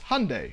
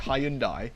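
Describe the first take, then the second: First: The American way, rhyming with Sunday. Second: The British way, not rhyming with Sunday.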